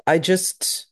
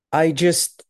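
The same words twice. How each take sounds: The two takes are said the same way.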